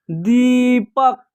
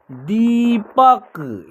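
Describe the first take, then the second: First: Said in the usual way. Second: Deepak drawn out slowly, syllable by syllable; slow careful reading. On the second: Shown as a demonstration. Teacher first reads Deepak slowly for students. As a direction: say Deepak slowly so learners can follow. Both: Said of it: "इसका उच्चारण होगा".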